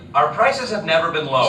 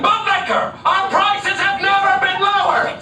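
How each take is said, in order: First: It is said at a normal volume. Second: It is yelled loudly.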